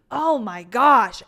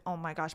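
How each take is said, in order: First: Loud, drawn-out exclamation; emphatic retold dismay; retold overwhelmed reaction. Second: Soft, low aside; understated, retold dismay; muted retold reaction. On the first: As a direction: stretch it out slowly and loudly. Retold reaction to tense scene. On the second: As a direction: say it under your voice, lower and quieter.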